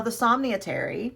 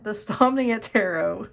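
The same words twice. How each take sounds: First: "Somnia Tarot" with Tarot slurred to "Terry". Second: Said in the usual way. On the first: Real, not acted. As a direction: say "Tarot" slipping into "Terry", TEH-ree. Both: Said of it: "I don't know where Terry came from".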